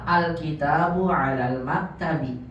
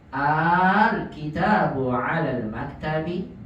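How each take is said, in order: First: The opening vowel is kept short. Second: The opening vowel is drawn out long. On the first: It states that the book is on the table. "kalau antum tidak panjangkan" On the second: It asks whether the book is on the table. "maka pengucapannya jadi dipanjangkan"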